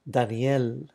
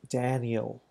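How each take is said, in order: First: The name is said with a Spanish accent. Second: The name is said with an English accent. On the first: The name keeps its ethnic heritage. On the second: The name has been assimilated into English.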